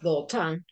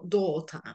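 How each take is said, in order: First: The stress is on the second syllable. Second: The stress is on the first syllable. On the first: The speaker calls it wrong. "No es daughter" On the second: The speaker calls it right. "Que es el acento de la primera sílaba"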